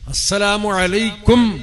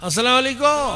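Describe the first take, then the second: First: The final word ends with a clear m sound. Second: The final word ends in a vowel, without m. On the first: The speaker calls it right. "മീമ് ഉച്ചരിക്കണം" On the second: The speaker calls it wrong. "അസ്സലാമു അലൈക്കോ പറഞ്ഞ"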